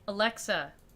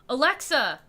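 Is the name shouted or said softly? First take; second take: softly; shouted. First: The name is said softly. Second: The name is shouted loudly.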